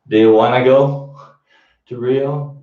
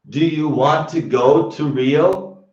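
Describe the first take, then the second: First: Want to is reduced to a single wanna. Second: Want to is said fully, as two words.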